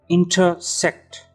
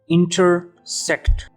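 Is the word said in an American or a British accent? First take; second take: British; American. First: It is said in a British accent. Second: It is said in an American accent. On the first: "In British English we pronounce it as intersect" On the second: "in American English we pronounce it as intersect"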